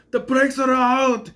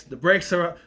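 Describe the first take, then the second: First: High, drawn-out shout imitating the character; panicked cry. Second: Said in the usual way. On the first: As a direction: cry out the alarm in mock panic, slowly. Acting out panicked driver's quote.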